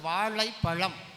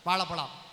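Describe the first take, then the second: First: The 'zh' sound is pronounced fully and clearly. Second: The 'zh' sound is slightly worn down. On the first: This is how people in the far south say it. "Kanyakumari மாவட்டம்... சரியா சொல்லிப்பாங்க" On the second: This is how people around Madurai say it. "Madurai பக்கத்தில் இருக்கிற தமிழர்கள்"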